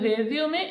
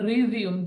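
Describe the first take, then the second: First: The word ends with an 'ay' vowel sound. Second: The word ends on the 'm' sound. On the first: It means a summary of one's career. "রেজিউমের অর্থ জীবন বৃত্তান্ত" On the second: It means to start again. "রিজিউমের অর্থ হলো পুনরায় শুরু করা"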